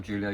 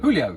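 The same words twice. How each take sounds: First: Julio said with an English J sound; "JOO-lio" for Julio; mispronounced name. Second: Julio said with an H sound; "HOO-lio" for Julio, starting loud; corrected pronunciation. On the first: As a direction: start Julio like "Julie". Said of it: "It's Julio, yeah. It's Julio". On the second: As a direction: say Julio with a breathed H, not J. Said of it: "It's Julio with the". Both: Real, not acted.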